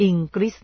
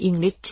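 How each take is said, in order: First: English with a hard g, "ing-grit"; G sounded. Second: English with no hard g, "ing-lit"; G silent. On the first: (อ่าน English แบบออกเสียงตัว G ว่า อิงกริช) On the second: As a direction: say English leaving the G unsounded. (อ่าน English แบบไม่ออกเสียงตัว G ว่า อิงลิช) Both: Shown as a demonstration. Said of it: "ตัว G จะออกเสียงหรือไม่ก็ได้".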